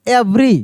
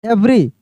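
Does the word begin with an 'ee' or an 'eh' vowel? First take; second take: eh; eh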